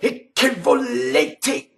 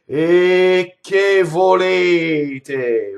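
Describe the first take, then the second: First: The consonants are hit hard and emphasized. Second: The vowels are stretched long and smooth.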